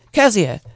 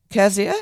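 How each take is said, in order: First: Louder, falling call of a name; loud scolding call, falling; sharp call. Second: Loud questioning call of a name; loud calling, rising on the end. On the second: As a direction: call her name, rising, across the yard. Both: Acted. Aunt calls out from the door.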